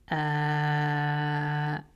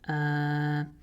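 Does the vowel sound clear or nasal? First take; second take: clear; nasal. First: The vowel is clear and stays steady. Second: The vowel is nasal and changes when pinched. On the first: The speaker calls it right. "if I say it without nasality" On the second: The speaker calls it wrong. "if I use nasality and I say uh"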